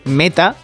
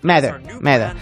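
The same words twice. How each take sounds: First: It is said with a plain Spanish accent. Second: It is said with an American English accent. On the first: "Pueden decir Meta" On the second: "lo dicen de esa forma que los americanos les gusta complicarlo"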